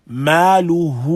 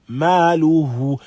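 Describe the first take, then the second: No difference in how they are said.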